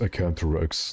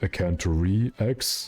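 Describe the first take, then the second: First: The ending blends into one syllable, 'rex'. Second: The ending is a separate spoken letter X. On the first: The speaker calls it right. "The proper name is Acanthorex" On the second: The speaker calls it wrong. "not Acanthore X"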